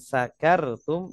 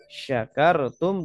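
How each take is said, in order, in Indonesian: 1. Kata ini diawali dengan bunyi 's'. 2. Kata ini diawali dengan bunyi 'sh'. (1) "mengucapkannya sakartum, ya pakai sin kecil" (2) "pakai sin besar sya sya"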